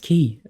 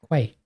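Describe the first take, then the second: First: It sounds exactly like the word key. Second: It starts with a k-w sound, like kway. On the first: The speaker calls it right. "That's key" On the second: The speaker calls it wrong. "It says quay, Q U A Y"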